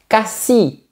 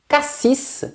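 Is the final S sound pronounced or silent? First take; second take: silent; pronounced. First: The final S sound is silent. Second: The final S sound is pronounced. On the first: It names the town. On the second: It names the fruit.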